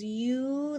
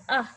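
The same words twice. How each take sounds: First: "U" stretched as the letter name "yoo"; long U. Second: "uh" as a brief isolated vowel; short "uh", as in up. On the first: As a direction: hold "U" as "yoo", as in unicorn. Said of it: "the long sound is". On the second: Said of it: "short U sound is". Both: Shown as a demonstration.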